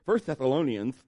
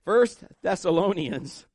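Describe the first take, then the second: First: Lisped s in "First Thessalonians", sounding like th; "First Thessalonians" with a slushy lisp. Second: Said in the usual way. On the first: Real, not acted. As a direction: let the s sounds in "Thessalonians" slip into th. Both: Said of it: "it sounds like I'm lisping".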